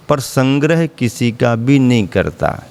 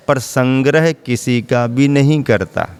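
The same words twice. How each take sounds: The two takes are said the same way.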